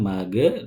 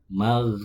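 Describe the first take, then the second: First: The gh sound is released with a bounce. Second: The gh sound flows smoothly without a bounce. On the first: The speaker calls it wrong. "mage memantul" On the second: The speaker calls it right. "mengalirnya suara"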